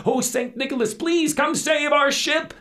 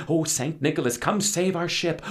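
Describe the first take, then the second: First: Much higher, louder wailing plea; desperate prayer. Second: Raised pleading prayer; praying. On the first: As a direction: cry to the saint as the ship sinks. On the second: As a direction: call out to the saint in hope. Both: Acted. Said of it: "they began to wish and pray".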